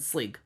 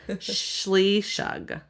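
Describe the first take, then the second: First: The name has one syllable, starting with 'sl'. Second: The name has two syllables, starting with 'shl'. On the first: This is the audiobook pronunciation. "completely different than Sleeg" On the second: This is the traditional Celtic pronunciation. "in Celtic, it's Schleeshug"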